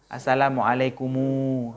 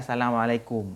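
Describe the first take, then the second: First: The final m is followed by an added u vowel. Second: The final m ends without an added vowel. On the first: The speaker calls it right. "setiap mim yang mati hanya pa, pasti tambah waw" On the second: The speaker calls it wrong. "enggak boleh assalamualaikum"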